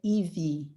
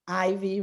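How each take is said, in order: First: The name is said with a Brazilian pronunciation. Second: The name is said with an American pronunciation. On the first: "in Brazil we say" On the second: "here everybody says like"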